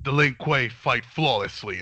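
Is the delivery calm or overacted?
calm. The line is delivered in a cool, restrained way. The speaker calls it right. "it sounds awesome"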